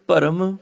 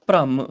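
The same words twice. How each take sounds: First: ਭਰਮ as bha-ram; full r. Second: ਭ੍ਰਮ as bhramm, falling; half r. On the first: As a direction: say ਭਰਮ with a vowel before the r. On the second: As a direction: join the first consonant to r in ਭ੍ਰਮ. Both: Shown as a demonstration. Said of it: "ਅੱਧਾ ਆਵੇ ਤੇ ਅੱਧਾ ਉਚਾਰਨ".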